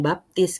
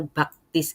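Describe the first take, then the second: First: Said in the usual way. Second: Baptis said as baktis, k for p; mispronounced baptis. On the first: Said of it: "belum bisa ngomong baptis". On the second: Retold or imitated. Mother's mispronunciation of baptis as baktis. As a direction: mimic mom saying baptis as baktis. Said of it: "ngomongnya baptis gitu".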